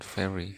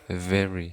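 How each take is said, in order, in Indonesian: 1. Dimulai dengan bunyi f tak bersuara. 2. Dimulai dengan bunyi v bersuara. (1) "bukan very" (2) "pengucapan yang tepat adalah very"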